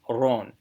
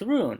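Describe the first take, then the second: First: The vowel is an 'oh' sound. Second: The vowel is a long 'oo' sound. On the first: The speaker calls it right. "No, it, it, it is Ron" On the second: The speaker calls it wrong. "you think, oh, it's rune"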